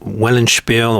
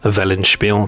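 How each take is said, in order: First: The word is pronounced in an English way. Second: The word is pronounced in a German way.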